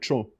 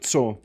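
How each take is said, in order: First: The word begins with a 'ch' sound. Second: The word begins with a 'ts' sound. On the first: "You'd say like cho" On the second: "instead of like co"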